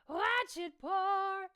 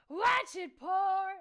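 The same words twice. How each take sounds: First: A rattle with only a little distortion. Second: Rattle, grunt and distortion are all layered heavily. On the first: "is like rattle with just a little distortion on it" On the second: "is like everything"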